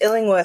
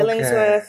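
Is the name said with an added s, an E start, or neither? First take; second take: neither; added s. First: It starts with 'Ill' and has no 's' sound. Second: An extra 's' sound comes before 'worth'. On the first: The speaker calls it right. "It's just Illingworth" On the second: The speaker calls it wrong. "people want to add in an S there"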